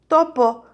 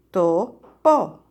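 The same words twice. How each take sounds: First: Said in the usual way. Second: "Topo" split into to, po with a gap; syllable by syllable. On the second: Shown as a demonstration. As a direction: separate both syllables of "Topo". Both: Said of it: "¿Cuántas sílabas en topo?".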